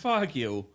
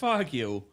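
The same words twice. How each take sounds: First: It is said in a light, joking tone. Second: It is said in a light, joking tone.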